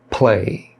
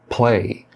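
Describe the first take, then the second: First: The p is released with a puff of air. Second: The p is released with a puff of air.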